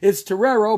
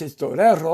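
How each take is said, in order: First: Torero with an English r, tuh-RARE-oh; flat American Torero; English pronunciation. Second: Torero with a tapped r, to-TEH-ro; crisp Spanish Torero, falling. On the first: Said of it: "But if you say it in English". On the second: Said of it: "in Spanish". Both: Shown as a demonstration.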